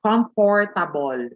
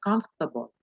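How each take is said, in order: First: "comfortable" slowly in four full syllables, com-FOR-ta-bol; mistaken pronunciation. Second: "comfortable" shortened to COMF-ta-bul; corrected pronunciation. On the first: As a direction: spell out every syllable of "comfortable". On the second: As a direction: drop the "or" in "comfortable". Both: Shown as a demonstration. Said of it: "you're not just gonna say".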